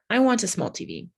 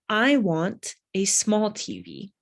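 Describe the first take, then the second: First: It is read at a faster pace. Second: It is read at a slow pace. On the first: "I'll start to read it faster" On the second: "I'll go slow first"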